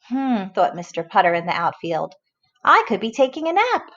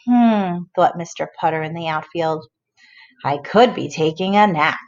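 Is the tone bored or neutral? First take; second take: neutral; bored. First: It is read in a neutral tone. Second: It is read in a bored tone.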